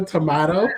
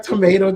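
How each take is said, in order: First: "tomato" as "to-MAH-to"; British pronunciation. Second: "tomato" as "to-MAY-to"; American pronunciation. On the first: Showing the other way of a word, "tomato" as "to-MAH-to". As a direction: say "tomato" with a broad AH in the middle. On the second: Showing a word said two ways, "tomato" as "to-MAY-to". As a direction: stress the middle of "tomato" with an AY vowel. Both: Shown as a demonstration. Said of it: "it's like tomato, tomato".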